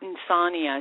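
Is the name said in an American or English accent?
English. The name is said in an English accent. The speaker calls it wrong. "She gets an English accent every time she says that"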